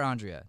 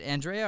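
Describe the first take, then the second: First: "Andrea" as AHN-dree-uh; alternative name pronunciation. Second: "Andrea" as an-DRAY-uh; name pronunciation variant. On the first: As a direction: open "ah" to start "Andrea", then "dree-uh". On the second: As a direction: say "Andrea" with a flat "an" and stressed "dray". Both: Shown as a demonstration. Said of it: "Is it Andrea or Andrea".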